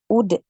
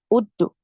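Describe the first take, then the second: First: The bounce after the d sounds like 'e'. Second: The bounce after the d sounds like 'u'. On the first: The speaker calls it right. "Ke huruf e ya" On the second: The speaker calls it wrong. "Jadi jangan"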